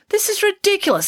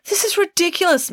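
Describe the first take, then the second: First: Much higher, sharp indignant snap; snapped. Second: Much higher, indignant outburst; exclaimed. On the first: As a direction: snap it at the detective. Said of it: "snapped Mister Fredericks". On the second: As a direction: blurt it out, outraged. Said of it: "Mister Fredericks exclaimed again". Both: A narrator's reading.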